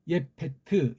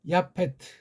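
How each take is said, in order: First: The first syllable is said with an 'e' vowel. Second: The first syllable is said with an 'a' vowel. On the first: The speaker calls it right. "그리고 예페트 이렇게 번역해야 돼" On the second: The speaker calls it wrong. "이거 야라고 하는 게 원래 아니죠"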